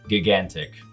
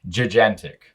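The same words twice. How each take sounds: First: Both g letters are given the same sound. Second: The two g letters are given different sounds. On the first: The speaker calls it wrong. "came across a word I'd never seen before" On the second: The speaker calls it right. "its proper pronunciation"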